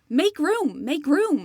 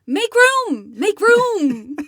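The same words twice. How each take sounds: First: It is said with only moderate emphasis. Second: It is said with strong, exclamatory emphasis. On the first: The speaker calls it wrong. "You said that with like a moderate amount of emphasis" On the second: The speaker calls it right. "read it with the punctuation that is included in the title"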